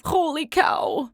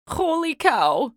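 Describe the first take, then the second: First: Holler. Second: Loud slow holler. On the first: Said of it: "said exactly what he thought". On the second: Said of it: "hollered Manny the cook". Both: A narrator's reading.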